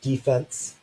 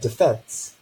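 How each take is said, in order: First: The stress is on the first syllable. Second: The stress is on the second syllable. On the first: It refers to something in sports. "initial stress in English, so the first syllable is stressed" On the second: It refers to something in law. "or we can have final stress"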